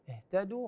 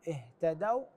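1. تنتهي الكلمة بحركة طويلة 'oo'. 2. تنتهي الكلمة بصوت مزدوج 'aw'. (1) "اهتدوا خطأ" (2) "اهتدوا هي الصحيح"

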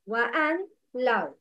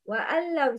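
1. 'an' و'law' مفصولتان بفاصل. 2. 'an' و'law' تُنطقان متصلتين دون فاصل. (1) "The wrong is" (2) "The correct is"

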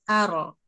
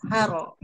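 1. Bunyi r tebal dan mengalir sebentar. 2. Bunyi r tebal dan mengalir sebentar.

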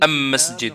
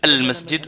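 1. L'article se prononce am. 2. L'article se prononce al. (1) "on dit « am-masjid »" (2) "au lieu de dire « al-masjid »"

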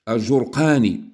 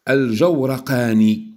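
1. الحركة الأولى هي 'u'، ولا توجد حركة بعد الراء. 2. الحركة الأولى هي 'a'، وبعد الراء 'a'. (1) "بضم الجيم وسكون الواو والراء" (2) "بفتح الجيم والراء"

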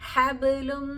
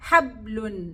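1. നിർത്തിയ വ്യഞ്ജനം ചെറിയ പ്രതിധ്വനിയോടെ വിടുന്നു. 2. നിർത്തിയ വ്യഞ്ജനം വിടാതെ അടച്ചു പിടിച്ചിരിക്കുന്നു. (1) "അപ്പൊ നമ്മളവിടെ ഒന്ന് കനപ്പിച്ച് പറയുക" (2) "അവിടെ നമ്മൾ മറ്റക്ഷരങ്ങൾ പോലെ പറഞ്ഞാലോ"

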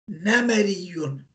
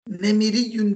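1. İkinci hecede e ünlüsü var. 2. İkinci hecede i ünlüsü var. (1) "aynın kesresini nispette fetha'ya dönüştüreceğiz" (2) "Nemiriyyun değil"

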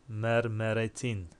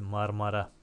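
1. İsimde e sesliler var, sonuna -tin eki eklenmiş. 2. İsimde a sesliler var, sonuna ek yok. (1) "bu mermeretin diye mi okunur? Okunmaz" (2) "Bunun doğru okunuşu nedir? Marmara'dır"

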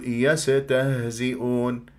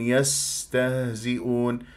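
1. السين تُقطع قصيرة مع حركة. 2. السين تُمدّ بصفير ثابت ومستمر.

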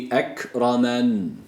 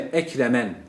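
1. r sesi kalın ve ağırdır. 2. r sesi ince ve hafiftir. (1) "Bu kalındır" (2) "Ekremen doğru okuyuş olmaz"

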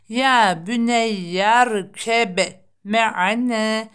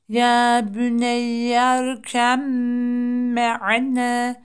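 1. b sesi m'den önce telaffuz edilir. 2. b, uzatılmış ve çift m'ye birleşir.

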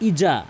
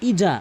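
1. মাঝের ব্যঞ্জনটি 'j' ধ্বনি। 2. মাঝের ব্যঞ্জনটি 'j' ধ্বনি।

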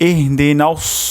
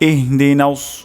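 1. s ধ্বনিটি ভারী এবং emphatic। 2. s ধ্বনিটি ভারী এবং emphatic।

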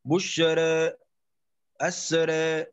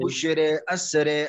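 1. الحركة الأخيرة مائلة قليلاً نحو 'i'. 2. الحركة الأخيرة مائلة بقوة نحو 'i'. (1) "نريد التقليل. بشرى أسرى هكذا" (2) "لا نقول بشرى أسرى، هذه إمالة"

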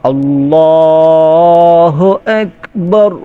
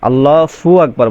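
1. Allah-এর পরের অংশটি h ধ্বনি দিয়ে বলা হয়। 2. Allah-এর পরের অংশটি f ধ্বনি দিয়ে বলা হয়। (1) "ফু হবে না, কেন হবে হু" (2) "অনেকেই বলে ফু"

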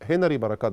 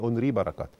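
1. الاسم بيبدأ بصوت H. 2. الاسم بيبدأ بحرف علة، مفيش H. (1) "كان في مخرج كده اسمه هنري بركات" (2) "بس هو كان اسمه ينطق يعني اونري بركات"

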